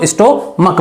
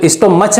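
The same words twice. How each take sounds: First: "स्टोमक" with a final hard k; correct pronunciation. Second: "स्टोमच" with a final ch sound; wrong pronunciation. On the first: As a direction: end "स्टोमक" on k, not ch. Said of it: "स्टोमक पढ़ेंगे". ("स्टोमक" के अंत में क की आवाज़) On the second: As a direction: end "स्टोमच" on ch, as in church. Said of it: "स्टोमच नहीं पढ़ेंगे इसको". ("स्टोमच" के अंत में च की आवाज़) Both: Shown as a demonstration.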